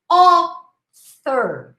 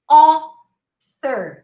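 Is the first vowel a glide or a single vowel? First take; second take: single vowel; single vowel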